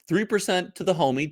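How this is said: It is said in a put-on Italian accent.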